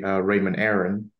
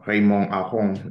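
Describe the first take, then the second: First: The name is said with English pronunciation. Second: The name is said with French pronunciation.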